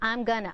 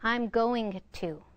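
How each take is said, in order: First: The words are slurred together into one. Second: Each word is said separately and distinctly. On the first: The speaker calls it wrong. "Instead of I'm gonna" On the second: The speaker calls it right. "you want to say"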